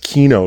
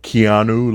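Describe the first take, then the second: First: The name is said with two syllables. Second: The name is said with three syllables. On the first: The speaker calls it right. "but it's Kino, like a key, and no" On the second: The speaker calls it wrong. "I've been called Keanu, like Keanu Reeves"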